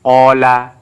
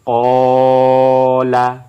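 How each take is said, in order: First: The final vowel is short. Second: The final vowel is held long. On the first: "Ini tidak ada yang panjang" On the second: "Tapi kalau ini"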